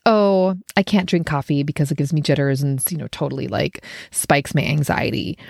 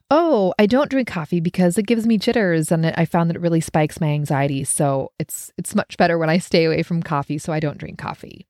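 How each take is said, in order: First: Grudging, put-upon excuse; resentful can't. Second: Calm, settled, matter-of-fact refusal; confident don't. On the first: Turning down a friend's coffee, annoyed. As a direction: sound deprived and annoyed. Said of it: "you're mad about it or just annoyed". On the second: Declining the coffee invite with calm confidence. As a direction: own the choice, no complaint. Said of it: "I'm putting these inflections in it". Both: Shown as a demonstration.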